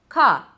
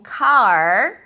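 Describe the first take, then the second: First: The final r is dropped. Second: The final r is clearly pronounced. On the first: "muitas vezes são pronunciadas como ca" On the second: "com esse R retroflexo bem marcado"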